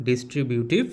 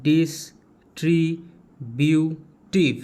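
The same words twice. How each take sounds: First: Said in the usual way. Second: ডিস্ট্রিবিউটিভ slowly split into four syllables, a pause after each; broken into syllables. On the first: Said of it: "বানান যদি ভাঙতে অসুবিধা হয়". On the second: Shown as a demonstration. Teacher breaking down a hard spelling for students, ডিস্ট্রিবিউটিভ in four slow, separate syllables. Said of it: "ভেঙে কেমন করে ভাঙবে?".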